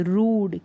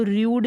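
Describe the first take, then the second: First: रूड as "rood", no glide; oo pronunciation. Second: र्यूड with a y-glide, "ryood"; wrong yoo pronunciation. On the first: Teacher correcting the misreading, रूड as "rood". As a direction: say रूड with a long "oo". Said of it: "इसको र्यूड नहीं पढ़ सकते". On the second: Teacher warning against a misreading, र्यूड as "ryood". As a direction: put "yoo" after the r in र्यूड. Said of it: "नहीं पढ़ सकते". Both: Shown as a demonstration.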